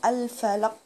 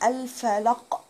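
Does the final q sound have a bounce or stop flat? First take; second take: flat; bounce. First: The final q is held with no release. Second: The final q is released with a bounce. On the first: The speaker calls it wrong. "لو انا ما طلعتوش كده مش هيطلع خالص" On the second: The speaker calls it right. "الحرف ده بيبقى من جوه كده، فانا عايزة اطلعه"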